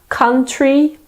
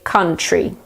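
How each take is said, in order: First: The T is pronounced as a clear T. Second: The T sounds more like a ch. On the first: "some people pronounce the T quite clearly" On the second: "other people say it more like a ch"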